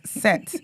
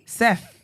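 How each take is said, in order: First: The name ends with a plain t sound. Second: The name ends with a th sound. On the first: The speaker calls it wrong. "this is what you lot are pronouncing as Set" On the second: The speaker calls it right. "Like, T H"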